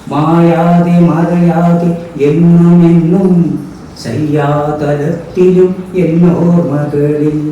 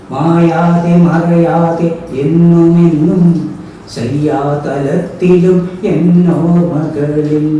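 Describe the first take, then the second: No difference in how they are said.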